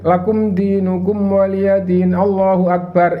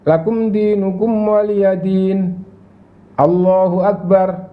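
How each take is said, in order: First: The two phrases run together without a pause. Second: A brief pause separates the two phrases. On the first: The speaker calls it wrong. "Itu namanya ndak ada jeda, ndak sunnah" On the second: The speaker calls it right. "jadi setelah surat jeda sebentar"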